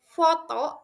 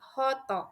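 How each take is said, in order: First: It begins with an F sound. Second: It begins with an H sound.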